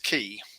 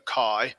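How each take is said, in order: First: The vowel sounds like 'ee'. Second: The vowel sounds like 'eye'. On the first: "other people say that it's key" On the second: "it's I, the I sound"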